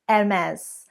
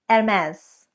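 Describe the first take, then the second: First: The H at the start is silent. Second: The H at the start is silent.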